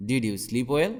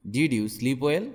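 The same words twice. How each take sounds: The two takes are said the same way.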